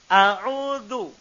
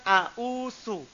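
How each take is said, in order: First: The last consonant is a dh sound. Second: The last consonant is an s sound. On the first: The speaker calls it right. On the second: The speaker calls it wrong.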